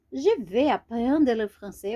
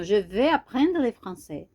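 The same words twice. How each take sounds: First: Slower, each word laid out for learners; slow repeat. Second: Said in the usual way. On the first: Shown as a demonstration. Teacher to beginners, repeating the sentence slowly. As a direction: say it again slowly so they can follow.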